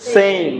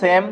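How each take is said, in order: First: The vowel glides from e to i. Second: The vowel is a plain e sound. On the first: The speaker calls it right. "সেম না বলে কি হবে" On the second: The speaker calls it wrong. "আমরা যে সেম বলি না"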